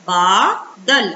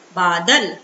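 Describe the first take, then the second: First: बादल very slowly, split as बा, then दल; syllable by syllable. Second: Said in the usual way. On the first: Shown as a demonstration. Teacher reading बादल out for children, syllable by syllable. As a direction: break बादल into two held parts, long बा first. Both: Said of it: "तो इसको हम पढ़ेंगे".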